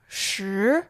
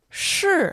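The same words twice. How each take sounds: First: The pitch rises from mid to high. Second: The pitch falls sharply from high.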